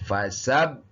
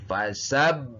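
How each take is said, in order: The two takes are said the same way.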